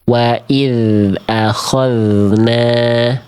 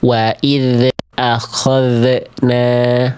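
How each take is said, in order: First: The dh sound is held steady and smooth. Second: The dh sound bounces with a released echo. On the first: The speaker calls it right. "tidak memantul, tidak putus" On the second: The speaker calls it wrong. "dibaca memantul"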